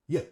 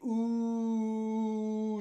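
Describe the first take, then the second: First: The vowel is a short, reduced schwa. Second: The vowel is a long, full oo. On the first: The speaker calls it right. "We say, yeah" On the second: The speaker calls it wrong. "we don't say, ooh, it's too long"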